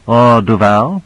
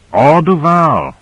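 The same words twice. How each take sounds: First: Said in the usual way. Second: "Duval" drawn out slowly and higher, then falling; slow, high-then-falling stress on "Duval"; emphatic agreement. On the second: A narrator's reading. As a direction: echo it as a firm answer, stretching "Duval". Echoes the question as answer.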